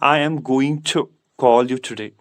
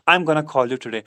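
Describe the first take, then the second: First: Going to is said as two full words. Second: Going to is shortened into one word, gonna. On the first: "या हम इस तरह बोलेंगे" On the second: "गोइंग टू की जो कंट्रक्शन form है वो क्या है गोना"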